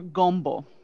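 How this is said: The vowel is strongly rounded, South Louisiana Cajun style.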